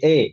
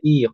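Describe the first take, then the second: First: The vowel is a fronted 'eh' sound. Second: The vowel is a clear 'ee' sound. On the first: This is the colloquial spoken form. "i itu biasanya dibaca dengan imalah" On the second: This is the classical Quranic form. "kalau di mushaf ada i"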